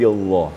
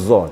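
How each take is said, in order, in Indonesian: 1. Konsonannya tebal, berat, dan lembut. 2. Konsonannya tipis dan ringan. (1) "lembut tapi besar gitu" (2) "Bukan za"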